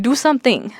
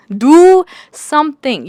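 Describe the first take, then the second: First: Said in the usual way. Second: Louder, higher and slow, hitting "Do" hard; exasperated louder repeat. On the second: Real, not acted. A fed-up reader ordering the book characters to act, louder and slower. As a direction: drag each word out like a frustrated command.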